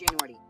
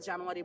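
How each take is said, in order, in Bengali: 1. American ইংরেজি উচ্চারণে বলা হয়েছে। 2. বাংলাদেশি ইংরেজি উচ্চারণে বলা হয়েছে। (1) "ওরা বলে জানুয়ারি" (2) "মাসগুলো আমরা জানুয়ারি বলি"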